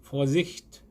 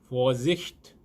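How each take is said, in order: The two takes are said the same way.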